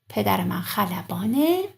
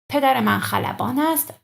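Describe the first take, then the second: First: It ends with a short vowel joined on. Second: It ends with the separate full word ast. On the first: This is how people actually speak. "that would be like this" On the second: This is the formal written form. "Always change است to ا"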